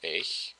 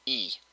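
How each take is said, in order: First: The word is said in standard German form. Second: The word is said as Austrian 'I'.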